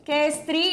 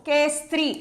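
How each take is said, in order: Both takes have the same delivery.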